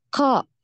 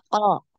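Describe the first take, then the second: First: The consonant is released with a hissing puff. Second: The consonant is released cleanly without breath. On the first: The speaker calls it wrong. "terlalu banyak hembusan ... desisan ... kalau seperti ini masih salah" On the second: The speaker calls it right. "jadi dia paling belakang"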